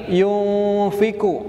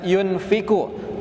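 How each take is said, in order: First: The n is hidden and nasalized, held long. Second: The n is pronounced clearly and fully. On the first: The speaker calls it right. "harus disamarkan mendekati huruf fa. Itu ditahan tiga harokat" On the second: The speaker calls it wrong. "jangan membaca"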